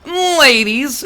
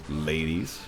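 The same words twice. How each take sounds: First: It is said in a special put-on voice. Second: It is said in an ordinary voice. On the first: The speaker calls it right. "you have to say it in that voice" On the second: The speaker calls it wrong. "You can't go"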